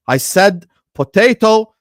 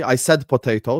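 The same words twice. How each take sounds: First: "potato" loud, high and slow; slow, raised-voice insistence on "potato"; emphatic correction. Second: Said in the usual way. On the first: Real, not acted. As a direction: spell it out loudly, leaning on "potato". Emphatic repeat correcting the chatter.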